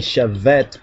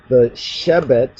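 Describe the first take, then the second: First: The middle consonant is a v sound. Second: The middle consonant is a b sound. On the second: "We're going to pronounce from the Ethiopic Hebrew pronunciation"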